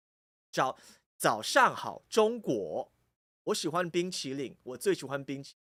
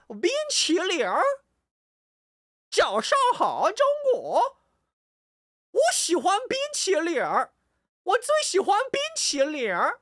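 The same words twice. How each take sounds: First: Even, unexaggerated Taiwanese Mandarin without country twang; Taiwanese Mandarin accent. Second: Loud, very high country-twang mainland Mandarin; mainland Chinese accent. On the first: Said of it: "if you're in Taiwan, it's not that". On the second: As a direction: belt out an exaggerated mainland accent, swooping up and down. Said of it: "That's how they talk". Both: Shown as a demonstration.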